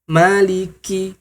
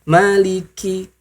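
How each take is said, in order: First: The k is said lightly with little breath. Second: The k is said lightly with little breath.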